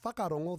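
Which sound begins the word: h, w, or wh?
wh. The word begins with a wh sound. This is the general form of the word. "instead of saying whakarongo"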